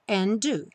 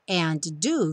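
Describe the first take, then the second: First: The two D sounds merge into one. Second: Both D sounds are pronounced separately.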